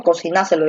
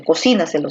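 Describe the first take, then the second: First: Cocináselo stressed on NA. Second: Cocínaselo stressed on CI. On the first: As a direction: put the weight on NA in Cocináselo. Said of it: "estoy diciendo". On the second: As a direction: put the weight on CI in Cocínaselo. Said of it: "se dice". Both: Shown as a demonstration.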